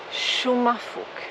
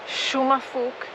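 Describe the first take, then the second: No difference in how they are said.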